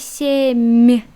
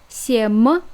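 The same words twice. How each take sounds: First: The final M sound is soft. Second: The final M sound is hard. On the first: "you have to smile" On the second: "without sign"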